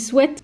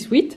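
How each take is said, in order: First: It is pronounced the English way. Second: It is pronounced the everyday French way. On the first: This is the officially correct pronunciation. "normalement ça se dit sweat" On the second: This is how people in France understand it. "ici personne va me comprendre. Donc je dis sweat"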